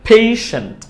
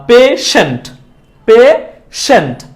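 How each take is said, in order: First: পেশেন্ট as aspirated "phei-shent"; correct pronunciation. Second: Slow পেশেন্ট as "pe... shent"; common mispronunciation. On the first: Teacher revealing the right form, পেশেন্ট with ei. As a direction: glide e to i in পেশেন্ট. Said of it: "সঠিক উচ্চারণটা হচ্ছে". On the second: Teacher showing the usual habit, slow পেশেন্ট with plain e. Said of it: "এরকম ভাবে usually আমরা করে থাকি". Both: Shown as a demonstration.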